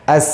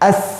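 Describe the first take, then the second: First: The final consonant sounds like s. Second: The final consonant sounds like th. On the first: The speaker calls it right. "seperti itu bunyi" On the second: The speaker calls it wrong. "Ini juga kesalahan. Tidak boleh ya. ... bunyinya bukan seperti sin tapi seperti sa"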